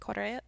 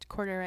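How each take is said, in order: First: It is said in a Mexican Spanish accent. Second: It is said in the speaker's plain accent.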